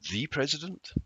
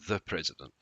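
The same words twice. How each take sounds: First: The word 'the' is long and forceful. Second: The word 'the' is short and weak. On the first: It shows surprise and emphasis, asking if it is really him. "It's the same sound as the apple, it's just longer and stronger" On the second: It is a plain mention of the president. "It's a very short sound"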